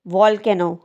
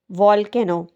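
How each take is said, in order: Both takes have the same delivery.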